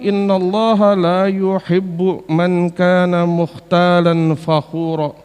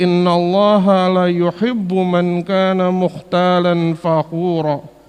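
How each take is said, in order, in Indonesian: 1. Vokal pada 'la' dibaca panjang. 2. Vokal pada 'la' dibaca pendek.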